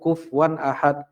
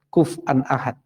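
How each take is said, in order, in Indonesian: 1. Huruf f langsung bertemu w tanpa vokal. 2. Ada hamzah setelah f sebelum 'an'. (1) "fa-nya disukunkan, langsung waw-nya uh, ya fathah kufwan ahad" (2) "pakai hamzah"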